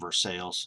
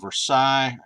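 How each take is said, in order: First: It is the local Kentucky pronunciation. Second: It is not the local Kentucky pronunciation.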